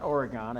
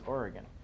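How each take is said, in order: First: The last syllable is a full 'gone' sound. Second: The last syllable is a reduced 'gun' sound. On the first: The speaker calls it wrong. "It's not Oregon" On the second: The speaker calls it right. "I learned today it's Oregon"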